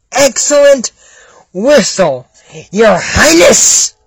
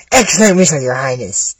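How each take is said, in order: First: Drawn-out, exaggerated flattery; mocking echo. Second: Said in the usual way. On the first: Listener mocking the guards' praise of the whistle, drawn-out echo. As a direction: parrot the praise word by word, slowly.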